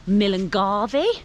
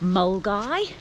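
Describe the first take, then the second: First: It is said with four syllables, following spelling. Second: It is said with two short syllables. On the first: The speaker calls it wrong. "if you look at the spelling, it looks like" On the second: The speaker calls it right. "it's said Mulgai"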